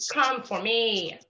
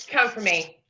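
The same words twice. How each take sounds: First: Slowly, softer come-and-get-me; slow taunt to the rival; slow dare. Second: Said in the usual way. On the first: Real, not acted. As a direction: drag out Come for me, quieter. Daring rival, repeated slower.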